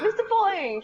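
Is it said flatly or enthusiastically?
enthusiastically. It is said with lively enthusiasm.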